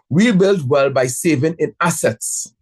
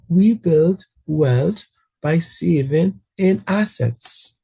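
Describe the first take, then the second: First: It is said in a plainer, less friendly tone. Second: It is said in a nicer, friendlier tone.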